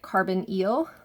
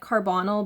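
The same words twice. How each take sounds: First: The last syllable sounds like 'eel'. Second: The last syllable does not sound like 'eel'. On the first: The speaker calls it right. "but we pronounce it carbonyl, like underwater eel" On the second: The speaker calls it wrong. "it looks like carbonyl"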